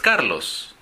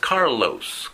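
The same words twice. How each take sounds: First: It is said with a local Spanish accent. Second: It is said with an American English accent.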